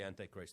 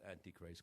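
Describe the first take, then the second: First: The first part sounds like 'an-tie'. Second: The first part sounds like 'auntie'. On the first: The speaker calls it right. "I usually say Antichrist" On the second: The speaker calls it wrong. "not Antichrist, because it makes it seem like he's an anti"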